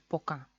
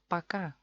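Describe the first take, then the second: First: The first vowel is a full O sound. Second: The first vowel is reduced to an A sound. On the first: It is the official form. "como es oficialmente. Tiene que ser poca" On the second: It is how natives actually say it. "los rusos lo pronuncian paca"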